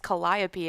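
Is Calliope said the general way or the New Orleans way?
general. It is said with the general, non-local pronunciation. The speaker calls it right. "It's Calliope"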